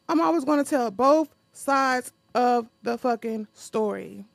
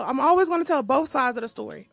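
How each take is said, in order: First: Louder redo with "fucking" punched hard; stress on fucking. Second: Said in the usual way. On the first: Shown as a demonstration. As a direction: hit "fucking" in the story line, louder. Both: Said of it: "Oh, I forgot about my little thing".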